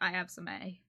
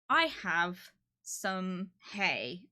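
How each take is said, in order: First: The h sounds are dropped, Cornish style. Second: The h sounds are clearly pronounced. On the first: "You'd skip the word. It sounds like I'm saying it, but I'm not" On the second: "I wouldn't say that"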